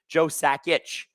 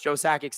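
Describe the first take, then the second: First: The name ends with an 'itch' sound. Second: The name ends with an 'ick' sound. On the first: The speaker calls it right. "the real way to pronounce Joe Sakic's name is apparently" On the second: The speaker calls it wrong. "it's been North Americanized"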